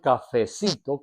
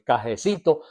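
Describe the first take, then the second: First: The middle consonant is an F sound. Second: The middle consonant is a J sound. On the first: This is the standard form. "No dijo el cafecito con F" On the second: This is rural peasant speech. "sino el cajecito. Era su hablado campesino"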